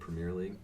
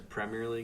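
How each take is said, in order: First: Premier is pronounced with an American accent. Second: Premier is pronounced with a European accent. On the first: "instead of Premier League" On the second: "he says Premier League ... Because he's European"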